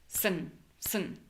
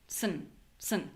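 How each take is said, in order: The two takes are said the same way.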